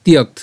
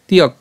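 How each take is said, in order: First: তিয়ক carried through to a final t, "tiyakt"; ends on KT. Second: তিয়ক cut off on a vowelless k; ends on K. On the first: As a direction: say তিয়ক with a closing k-t cluster. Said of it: "তয়ে পর্যন্ত উচ্চারণ করছি". (তিয়ক, ক-য়ে ত পর্যন্ত উচ্চারণ) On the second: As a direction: say তিয়ক as "tiyak", stopping at k. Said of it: "ক হসন্ত পর্যন্ত উচ্চারণ করতে পারি". (তিয়ক, ক হসন্তে থেমে) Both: Shown as a demonstration.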